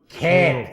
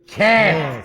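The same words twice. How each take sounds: First: It is said at normal volume. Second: It is said loudly.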